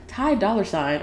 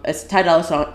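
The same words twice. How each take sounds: First: Said in the usual way. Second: "Sign" slipped into "song"; misspoken name. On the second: Real, not acted. Podcaster naming the artist, misspoken name. Slip of the tongue, then corrects it.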